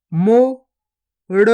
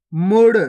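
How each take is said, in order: First: गुफा drawn out very slowly, each sound held long; slow stretched reading. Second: Said in the usual way. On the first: Shown as a demonstration. Teacher showing pupils each sound, drawn out very slowly. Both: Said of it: "पहले तो आपको शब्द को गौर से सुनना है".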